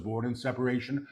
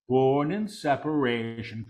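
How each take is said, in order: First: Quick, soft undertone; hushed preview. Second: Deliberate full-voice repeat; measured proclamation. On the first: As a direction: say it softly and rapidly before proclaiming it. Quick soft take before repeating aloud. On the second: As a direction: proclaim it clearly, word by word. Same words repeated in full voice. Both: Real, not acted.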